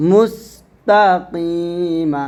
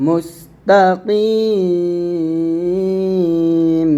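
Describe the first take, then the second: First: মুস্তাকিমা with moderately held ki and an open short ma at the end; slow, measured মুস্তাকিমা, ending on the open vowel; continuing form. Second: মুস্তাকিম closed on m with a very long drawn-out ki; pausing form. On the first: Qur'an teacher models the unstopped word, open ma ending on মুস্তাকিমা. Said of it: "যদি আমরা এখানে থামি". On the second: Qur'an teacher shows how to stop, long-held ending on মুস্তাকিম. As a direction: stop on মুস্তাকিম, holding the last vowel long and steady. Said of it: "যদি আমরা এখানে থামি তাহলে বলবো". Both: Shown as a demonstration.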